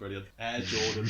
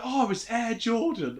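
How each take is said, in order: First: Low, deadpan acted reply; mock unimpressed. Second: Higher-pitched imitation of an excited onlooker; mock starstruck. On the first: The star answering cartoon fans, mock unimpressed. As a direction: drop the pitch, thoroughly underwhelmed. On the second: Cartoon old woman recognising Michael Jordan, mock starstruck. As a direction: play a cartoon fan spotting a star.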